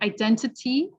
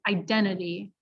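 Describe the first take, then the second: First: The T after N is clearly pronounced. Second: The T after N is dropped. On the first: The speaker calls it right. "identity becomes identity" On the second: The speaker calls it wrong. "becomes identity"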